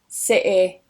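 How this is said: It is said in a northern English accent. "then I'm going to switch to the more northern variety"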